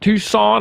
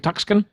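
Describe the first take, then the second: First: It is said the usual way, without a k. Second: It is said with a k sound in the middle.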